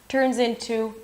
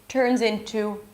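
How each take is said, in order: Both takes have the same delivery.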